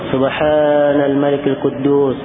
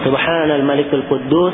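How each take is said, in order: First: The phrase is drawn out and lengthened. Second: The phrase is said at normal length.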